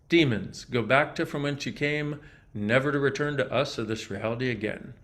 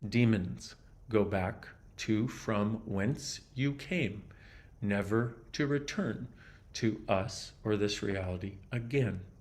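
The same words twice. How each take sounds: First: It is said at a normal pace. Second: It is said slowly.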